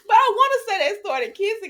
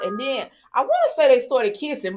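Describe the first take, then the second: First: High excited restatement, stress on I; emphatic retelling. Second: Said in the usual way. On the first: Shown as a demonstration. Recapping the soap scene for viewers, stressed restatement. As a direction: restate it with a higher push on I.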